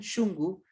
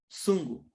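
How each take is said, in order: First: It is said in Ecuadorian Kichwa, with sh. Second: It is said in Peruvian Quechua, with s.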